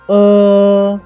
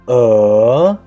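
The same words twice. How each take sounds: First: The pitch stays high and level. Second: The pitch rises from mid to high. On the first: "The first tone of uh is uh" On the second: "The second tone is uh"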